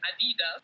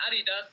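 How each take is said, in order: First: ADIDAS said the American way; Adidas as Americans say it, stressed on the middle DI; American pronunciation. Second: ADIDAS said the German way; Adidas as Germans say it, stressed at the start; German pronunciation. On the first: Athlete quoting how you guys say it, American pronunciation. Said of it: "In the U S". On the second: German athlete showing the interviewer how Germany says it, German pronunciation. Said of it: "we say in Germany". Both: Shown as a demonstration.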